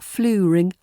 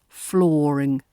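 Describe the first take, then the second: First: The first vowel is not a long 'or'. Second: The first vowel is a long 'or'. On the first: The speaker calls it wrong. "It's not fluring" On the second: The speaker calls it right. "We've got that long or sound in there"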